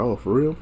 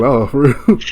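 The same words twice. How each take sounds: First: Said in the usual way. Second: Louder, higher, through laughter; laughing retold surprise. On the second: Reacting to news of his busted lip, laughing surprise. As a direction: repeat the surprised question, cracking up.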